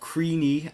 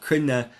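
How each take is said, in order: First: The name is said in a common non-Irish way. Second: The name is said the Irish way. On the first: "as some people pronounce it" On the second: "it would be the Irish pronunciation"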